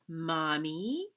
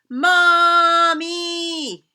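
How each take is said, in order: First: It is said very quietly. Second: It is yelled as loud as possible.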